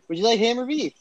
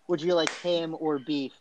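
First: It is said very quickly, words run together. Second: It is said at a normal, clear pace.

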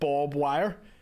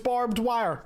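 First: The first word sounds like 'bob'. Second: The first word sounds like 'barbed'. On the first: This is how many locals say it. The speaker calls it wrong. "people going, it's pronounced Bob Wire" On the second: This is the standard form of the word. The speaker calls it right. "I know it's barbed wire"

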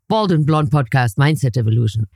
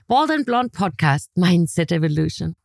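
First: The voice sounds grumpy and flat. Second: The voice sounds cheerful and upbeat. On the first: The speaker is in a bad mood. "When I'm in a bad mood" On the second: The speaker is in a good mood. "good mood, I can say"

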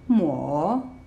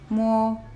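First: The pitch dips down and then rises. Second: The pitch stays high and level. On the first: "goes down, and then goes up" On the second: "the first tone is a high tone, and it's leveled, it's straight"

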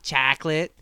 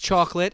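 First: The vowels are stretched out and drawn long. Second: The vowels are short and plain. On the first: The speaker calls it wrong. "She had four A's in there" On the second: The speaker calls it right. "It's chocolate"

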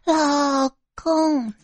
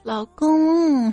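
First: The first syllable is drawn out long. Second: The second syllable is drawn out long.

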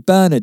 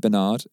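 First: It is pronounced the way English speakers say it. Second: It is pronounced differently from the English way. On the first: "we say Bernard in England" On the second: "We don't say Bernard"

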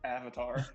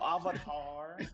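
First: The word is pronounced the usual English way. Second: The word is pronounced in an unusual way. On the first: The speaker calls it right. "It's the real word" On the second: The speaker calls it wrong. "You don't have to pronounce it weirdly"

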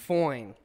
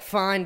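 First: The vowel sounds like 'oi', as in 'foine'. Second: The vowel sounds like plain 'fine'. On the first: It is even better than fine. "You add the O after the I" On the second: It is simply fine. "It's like fine"

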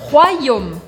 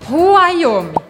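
First: The sounds run together without any pause. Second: A pause splits the sounds inside the word. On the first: The speaker calls it right. "não" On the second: The speaker calls it wrong. "você não pode fazer uma pausa entre os sons"

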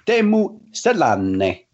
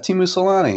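First: The name is pronounced in a Finnish way. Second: The name is pronounced in an American English way. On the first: The speaker calls it right. "And he goes" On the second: The speaker calls it wrong. "everyone in the States calls him Timu Salani. And I was like, oh yeah"

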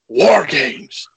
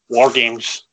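First: The phrase is said loudly with hyped-up energy. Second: The phrase is said flatly, without extra energy. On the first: The speaker calls it right. "I should have said War Games" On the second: The speaker calls it wrong. "Sorry, I didn't do that right, did I?"

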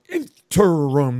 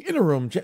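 First: The word is pushed out with heavy emphasis. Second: The word is said quickly and lightly. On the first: "they push the word out there" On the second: "they don't blow by the word"

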